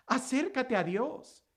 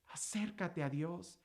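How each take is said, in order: First: Said in the usual way. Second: "Acércate a Dios" dropped much softer and slow; hushed plea. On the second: Acted. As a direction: pull way back and say "Acércate a Dios" softly. Repeated plea, second one hushed. ("Acércate a Dios" susurrado, suave y lento)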